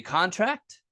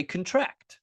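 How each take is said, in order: First: "contract" stressed on CON, with a full "ah"; stress on first syllable. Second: "contract" stressed on TRACT, with a schwa first; stress on last syllable. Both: Shown as a demonstration. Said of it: "put the emphasis on the last syllable".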